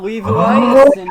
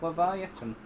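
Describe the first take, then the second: First: The name is said with Japanese sounds. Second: The name is said with English sounds.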